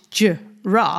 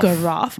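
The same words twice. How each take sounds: First: The word starts with a soft J sound. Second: The word starts with a hard G sound. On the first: The speaker calls it right. "it's giraffe" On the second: The speaker calls it wrong. "Not giraffe"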